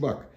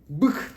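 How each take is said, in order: First: The vowel is an open 'a' sound. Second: The vowel is a close, unrounded 'ı' sound. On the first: This is how the name is actually pronounced in English. The speaker calls it right. "Okunuşu bak" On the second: This is how the translator rendered the name. The speaker calls it wrong. "Bık diyor"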